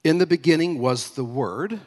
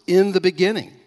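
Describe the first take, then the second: First: Said in the usual way. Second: "In the beginning" hit high and loud; stressed, raised "In the beginning", falling at the end; emphatic stress. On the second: Shown as a demonstration. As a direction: punch out every word of "In the beginning". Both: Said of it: "let's emphasize those first words".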